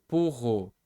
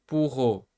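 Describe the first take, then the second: Both takes have the same delivery.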